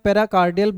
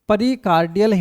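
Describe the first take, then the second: First: The word begins with the syllables 'pera'. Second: The word begins with the syllables 'pari'. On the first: This is how it is said in English. "English में पेराकार्डियल बोलते हैं" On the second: This is how it is said in Hindi. "Hindi में बोलते हैं"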